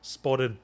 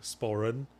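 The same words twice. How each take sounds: First: The R is tapped, sounding almost like a D. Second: The R is soft, with the tongue kept low. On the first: "in my Scottish accent, uh, my tongue actually briefly touches the roof of my mouth" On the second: "say sporran in my normal accent, you pronounce the R with my tongue down"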